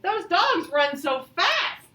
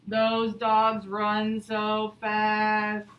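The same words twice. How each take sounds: First: It is read with excitement. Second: It is read flatly, without excitement.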